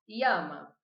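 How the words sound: The ll is said like an i sound. "essa seria a pronúncia que eu adoto"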